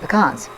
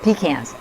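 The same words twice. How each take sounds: First: It is said in a non-Southern pronunciation. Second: It is said in a Southern US pronunciation.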